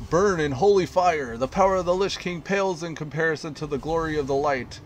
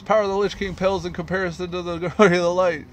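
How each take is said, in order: First: Raised, ringing holy fury; righteous inquisitor shout. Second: Louder and fast, cracking up midway; faster zealot shout. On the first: Inquisitor proclaiming judgment on the mayor, loud zealous shout. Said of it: "he says". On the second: Inquisitor reprising his judgment, fast laughing shout. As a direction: rush the proclamation, fighting a laugh. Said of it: "And then he says". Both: Acted.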